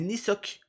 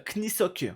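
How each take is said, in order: First: The name starts with an N sound, no K. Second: The name starts with an audible K sound. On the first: The speaker calls it right. "le K ne se prononce pas et c'est Nisok" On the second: The speaker calls it wrong. "moi je prononçais ... avec le K devant"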